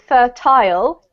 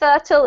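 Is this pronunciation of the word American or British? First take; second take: British; American. First: It is said with a British pronunciation. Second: It is said with an American pronunciation. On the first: "because I'm from the U K, I actually pronounce it fertile" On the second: "that's like more like the U S pronunciation"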